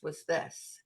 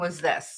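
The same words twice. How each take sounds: First: It is said quietly with low energy. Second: It is said loudly with high energy. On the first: The person has a quiet, introverted personality. "and he was quiet and a big introvert" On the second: The person has a loud, outgoing personality. "so everyone was hyper loud"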